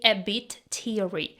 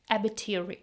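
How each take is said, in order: First: Both T sounds are clearly pronounced. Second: The T in 'bit' is dropped, said fast. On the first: "She didn't say a bit teary. Here we have two T's" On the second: "The second T is dropped. ... really fast and smoothly"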